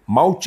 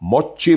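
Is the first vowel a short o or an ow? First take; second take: ow; short o. First: The first vowel is a gliding ow. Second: The first vowel is a short o. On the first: This is the English way. "इंग्रजीमध्ये माऊची म्हणतात, मावशीसारखं" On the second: This is the Japanese way. "त्यांच्या भाषेत मॉच्ची म्हणतात, मच्छीसारखं"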